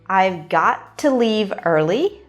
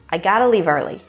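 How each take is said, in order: First: 'Got to' is said as two full words. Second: 'Got to' is blended into 'gotta'. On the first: "Got to" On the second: "becomes gotta"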